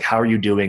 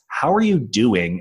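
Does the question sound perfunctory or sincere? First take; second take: perfunctory; sincere. First: It sounds quick and perfunctory. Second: It sounds warm and sincere.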